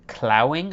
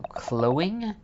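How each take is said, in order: First: Clowing with ow as in cow, klau-ing; word corrected. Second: Clowing with an o as in go, klo-ing; odd word tried out. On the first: Trying the strange word again, Clowing rhymed with cow. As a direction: say Clowing so the first part rhymes with now. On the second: Reading an unknown word aloud, clowing as klo-ing. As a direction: sound out clowing as klow rhyming with snow. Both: Shown as a demonstration.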